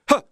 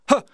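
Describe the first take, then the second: Both takes have the same delivery.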